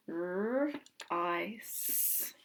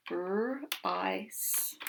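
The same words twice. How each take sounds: First: R-ice drawn out slowly, rising; stretched sounding out. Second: R-ice split into R then ice; sounding out. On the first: Teacher repeating the split for kids, drawn out. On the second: Teacher segmenting a word for kids, sounded out slowly. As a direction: break R-ice into its two sounds. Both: Shown as a demonstration.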